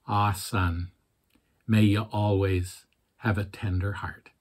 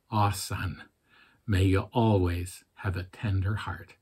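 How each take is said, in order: First: Soft, tender Scottish father; gentle Scottish burr, quietly; Scottish accent. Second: Put-on softer repeat in Scottish accent; quiet, tender Scottish father. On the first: Retold or imitated. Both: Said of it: "He had a fairly thick Scottish accent".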